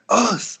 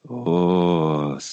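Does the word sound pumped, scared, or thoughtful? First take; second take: pumped; thoughtful. First: It is said in an energetic, fired-up way. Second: It is said in a quiet, inward, reflective way. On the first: The speaker is ready for hard training. "If you're kind of like ready and pumped to do some hard training, you're like" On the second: The speaker is deep in introspection. "if you're like in huge introspection, you're like"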